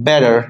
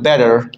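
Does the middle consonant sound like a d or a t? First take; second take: d; d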